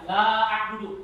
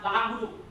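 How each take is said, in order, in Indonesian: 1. Vokal pada 'la' dibaca panjang. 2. Vokal pada 'la' dipendekkan. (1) "Itu panjang la itu namanya panjang"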